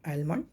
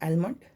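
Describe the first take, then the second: No difference in how they are said.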